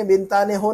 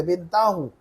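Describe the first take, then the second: First: बिनताने हो with "ne" sounded; the disallowed बिनताने हो, noon pronounced; form with noon kept. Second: बिनताहु as one word, no "ne"; noon dropped. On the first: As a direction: say बिनताने हो keeping the n syllable. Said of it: "नहीं पढ़ सकते". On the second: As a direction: join binta straight onto hu in बिनताहु. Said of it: "नून गिरा कर पढ़ना है". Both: Shown as a demonstration.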